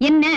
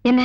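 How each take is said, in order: First: "என்ன" louder and higher; insistent question. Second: Said in the usual way. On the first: Acted. Officer demands what the callee said, loud insistent "என்ன". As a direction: press for an answer with a loud "என்ன". Asks again, impatient for answer.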